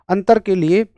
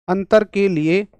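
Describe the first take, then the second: Both takes have the same delivery.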